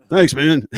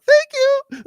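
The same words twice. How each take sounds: First: Said in the usual way. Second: Much higher, louder starstruck squeak; squeaky thank you. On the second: Retold or imitated. Guitarist thanking the big dude, squeaky high gush. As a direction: gush it like a thrilled fan. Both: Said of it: "trying not to do a voice like".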